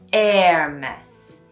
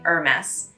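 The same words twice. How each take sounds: First: It starts with no H, like 'air'. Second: It starts with no H, like 'er'. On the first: "pronounced more like the word air in English" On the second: "if you cut the H off"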